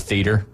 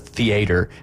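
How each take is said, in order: First: It is said with fewer syllables, Northern style. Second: It is said with extra syllables, Southern style. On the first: This is how people up north say it. "What do you call it up north? A theater" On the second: This is how people in the South say it. "as y'all call it down here"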